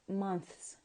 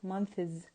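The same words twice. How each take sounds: First: The word ends with a hissing s sound. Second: The word ends with a buzzing z sound. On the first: The speaker calls it right. "you have to pronounce it as what? As months" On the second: The speaker calls it wrong. "not months"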